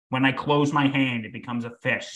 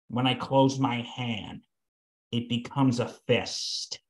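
First: It is said in a plain, casual way. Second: It is said in a chilling, menacing way.

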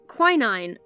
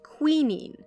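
First: It is said with an American pronunciation. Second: It is said with a British pronunciation.

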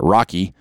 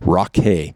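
First: The name ends in an 'ee' sound. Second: The name ends in an 'ay' sound. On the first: The speaker calls it wrong. "I'm not going to pronounce it Rocky" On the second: The speaker calls it right. "but Rocky"

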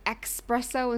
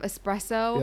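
First: It is said with a ks sound. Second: It is said with a plain s sound. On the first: The speaker calls it wrong. "if you say espresso instead of" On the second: The speaker calls it right. "there's no X"

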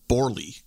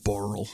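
First: The surname ends with an 'ee' sound. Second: The surname does not end with an 'ee' sound. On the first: The speaker calls it wrong. "I pronounced it as Borley, because that's how it's spelt" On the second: The speaker calls it right. "it's actually Borel"

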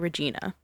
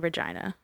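First: The name is said the American way. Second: The name is said the non-American way. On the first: "American people usually say Regina" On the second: "they don't say Regina"

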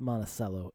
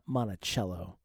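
First: It is said the local Iowa town way. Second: It is said the other, non-local way. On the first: This is how the Iowa town is said. The speaker calls it right. "it's pronounced Monticello" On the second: This is how the Iowa town is not said. The speaker calls it wrong. "and not Monticello"

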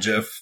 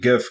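First: The word starts with a J sound. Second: The word starts with a hard G sound. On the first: The speaker calls it wrong. "some people do call it" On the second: The speaker calls it right. "I call it GIF because"

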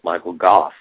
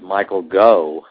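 First: The surname ends in an f sound. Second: The surname ends in a vowel sound. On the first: The speaker calls it right. "no, it's Michael Goff" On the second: The speaker calls it wrong. "I thought the GH was silent"

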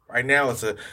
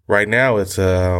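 First: It is said in a casual voice. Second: It is said in a serious voice.

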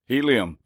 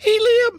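First: It is said in a normal voice. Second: It is said in a high-pitched voice.

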